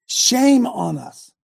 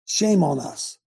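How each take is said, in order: First: Higher and slower, each word weighted; slow emphatic rebuke. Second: Said in the usual way. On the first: Real, not acted. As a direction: drag out Shame on us, pitched up.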